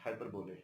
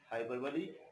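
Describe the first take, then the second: First: The word ends like 'bowl', final e silent. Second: The word ends in a sounded 'lee' syllable. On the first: The speaker calls it wrong. "wrongly pronounced and people pronounce it hyperbole" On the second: The speaker calls it right. "the correct pronunciation of the word is hyperbole"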